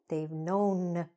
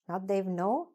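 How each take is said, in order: First: Every sound is said slowly and clearly. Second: It is rushed and part of it is dropped. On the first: The speaker calls it right. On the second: The speaker calls it wrong.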